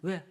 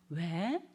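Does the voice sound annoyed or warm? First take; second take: annoyed; warm. First: It sounds annoyed and dismissive. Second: It sounds warm and affectionate. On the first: The parent does not want to be bothered. The speaker calls it wrong. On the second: The parent lovingly welcomes the child. The speaker calls it right.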